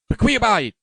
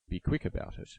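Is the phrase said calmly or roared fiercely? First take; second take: roared; calm. First: It is roared fiercely, the words run together. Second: It is said plainly, with distinct separate words. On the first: "it was a roar" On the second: "Javert did not say"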